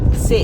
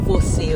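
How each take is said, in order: First: The word is cut to one short syllable. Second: The word is said in full with two syllables. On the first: "você fala se" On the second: "você não fala você o tempo todo"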